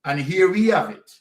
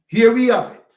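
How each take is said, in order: First: Said in the usual way. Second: Emphatic repeat. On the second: Real, not acted. Repeats phrase, second louder.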